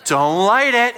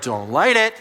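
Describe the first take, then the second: First: Louder, higher plea not to light it; urgent plea. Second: Said in the usual way. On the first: Retold or imitated. Pastor begging people with lighters, urgent louder plea. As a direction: beg them urgently not to light the fuse.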